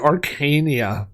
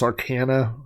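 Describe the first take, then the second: First: The word ends with an extra 'ee' sound. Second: The word ends without an extra 'ee' sound. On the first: This is how it was habitually said before. The speaker calls it wrong. "I always used to say Arcania" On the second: This is how it is apparently meant to be said. The speaker calls it right. "I guess it's Arcana"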